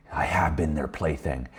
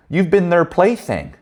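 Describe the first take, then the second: First: Quiet admission. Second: Slow, high teasing line "you've been their plaything"; drawn out and high, needling him knowingly; knowing jab. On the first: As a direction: concede it softly and slowly, as the friend. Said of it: "friend admits it, quoted". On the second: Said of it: "And I said". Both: Retold or imitated.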